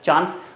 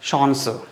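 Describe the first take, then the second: First: The word is pronounced the English way. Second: The word is pronounced the German way. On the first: "English word है चांस" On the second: "but इसको हम कैसे बोलते हैं"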